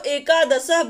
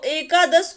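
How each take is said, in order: First: The word ends with an added 'a' vowel. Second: The word ends in a consonant sound. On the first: The speaker calls it wrong. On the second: The speaker calls it right.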